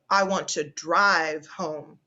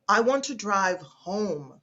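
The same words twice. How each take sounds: First: The stress falls on the word drive. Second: The stress falls on the word home. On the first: The speaker wants to take the car, not walk or get a taxi. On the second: Home is where the speaker wants to go.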